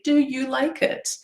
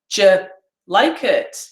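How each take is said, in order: First: Do and you are said as separate words. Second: Do and you merge into a j sound. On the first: The speaker calls it right. "if I was speaking slowly" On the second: The speaker calls it wrong. "because that's really weird"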